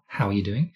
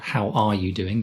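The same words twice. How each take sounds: First: The words how and are are joined together. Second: The words how and are are said separately. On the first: The speaker calls it right. "Try to connect the how and the are" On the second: The speaker calls it wrong. "Not how are you doing"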